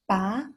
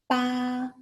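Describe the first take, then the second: First: The syllable carries the rising second tone. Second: The syllable carries the first tone. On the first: "Second tone, the rising tone" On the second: "if it's the first tone, the first tone, it sounds like ba"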